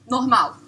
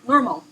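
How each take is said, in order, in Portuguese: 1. Fala com sotaque brasileiro padrão. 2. Fala em inglês americano, com ênfase na primeira sílaba. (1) "Em português você fala" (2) "Com ênfase na primeira sílaba, você já fala do jeito americano"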